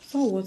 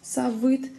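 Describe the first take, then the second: First: The middle sound is a vowel-like u. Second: The middle sound is a consonant v. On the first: The speaker calls it right. "а о, так как в татарских словах все буквы о, в читаются как о" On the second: The speaker calls it wrong. "Читаем не в"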